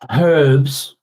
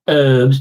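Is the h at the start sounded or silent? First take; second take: sounded; silent. First: The h at the start is sounded. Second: The h at the start is silent. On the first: The speaker calls it right. "we have to say herbs ... because there's a friggin' H in it" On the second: The speaker calls it wrong. "and not herbs"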